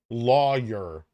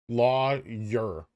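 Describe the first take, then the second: No difference in how they are said.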